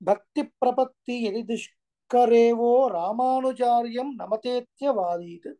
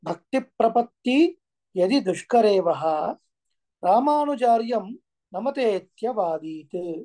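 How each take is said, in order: First: The words are joined, ending in 'vo'. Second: The words are separated, ending in 'vah'. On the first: "కలిసి చదివితే" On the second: "విడదీసినప్పుడు వహ అని వస్తుంది"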